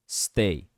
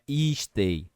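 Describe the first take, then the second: First: The word starts directly with the s. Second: A vowel sound comes before the s. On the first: The speaker calls it right. "É som de S no começo" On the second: The speaker calls it wrong. "Não é e stay"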